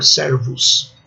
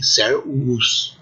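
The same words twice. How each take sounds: First: "servus" with a consonant V; preferred pronunciation. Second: "servus" with the V as a separate U vowel; disfavored pronunciation. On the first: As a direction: say "servus" as two syllables, ser-vus. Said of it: "Essa é a menor". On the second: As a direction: say "servus" as ser-u-us, with a double U. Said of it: "difícil imaginar que o romano antigo pronunciasse assim". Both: Shown as a demonstration.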